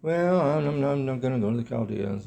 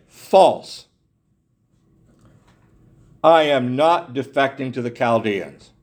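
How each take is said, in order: First: Soft, hesitant, half-swallowed denial; meek mumble. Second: Firm indignant denial, False hit hard; preacher voicing Jeremiah denying the defection, indignant. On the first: Shown as a demonstration. Preacher showing how Jeremiah did not answer, meekly. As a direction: mumble it timidly, almost apologetic. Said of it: "You don't get the sense that he said". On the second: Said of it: "He was indignant".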